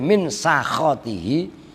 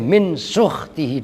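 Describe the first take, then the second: First: The word is read with the vowels sa-kha. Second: The word is read with the vowels suk-h. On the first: "boleh min sakhotihi" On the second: "boleh min sukhtihi"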